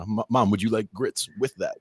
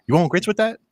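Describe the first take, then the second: First: Said in the usual way. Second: Southern waitress. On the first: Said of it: "had to literally translate for Mom". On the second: Retold or imitated. Waitress asking mom if she wants grits, Southern accent. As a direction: ask it like a Southern diner waitress. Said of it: "the waitress is asking my mom".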